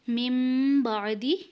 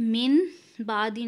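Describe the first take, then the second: First: The first word ends in an m sound. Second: The first word ends in an n sound. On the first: The speaker calls it right. "नून को मीम के साथ बदल देंगे, मिम बादी पढ़ेंगे" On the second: The speaker calls it wrong. "मिन बादी नहीं"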